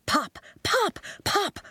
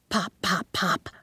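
First: Much higher bright pops; playful popping noises; popping sounds. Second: Said in the usual way. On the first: A narrator's reading. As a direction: pop each word like a bubble.

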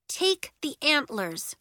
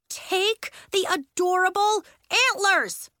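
First: Measured, insistent order; slow, deliberate command; firm demand. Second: High, loud, drawn-out order; insistent, heavily stretched command; exasperated demand. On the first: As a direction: press the demand slowly. First demand to hold out antlers. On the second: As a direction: punch each word slowly and loudly. Demand repeated, escalating at Elliot. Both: A narrator's reading.

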